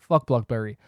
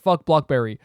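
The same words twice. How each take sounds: First: The phrase is said at a quieter volume. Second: The phrase is said at a louder volume.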